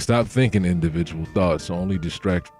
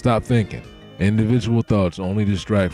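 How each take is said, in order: First: There is no pause after 'thinking'. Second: There is a pause right after 'thinking'. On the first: Individual thoughts should stop being thought. The speaker calls it wrong. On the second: Thinking should stop because individual thoughts distract. The speaker calls it right.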